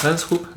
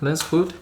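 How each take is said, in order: First: "hoop" with a p at the end instead of a d; slip of the tongue. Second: Said in the usual way. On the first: Real, not acted. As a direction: say "Lens hoop", ending the last word on a p sound.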